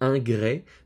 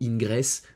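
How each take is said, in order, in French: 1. Le mot se termine par une voyelle, pas de son s. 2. Le mot se termine par un son s audible. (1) "Non, non, c'est ingrès" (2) "mal prononcé par les astrologues"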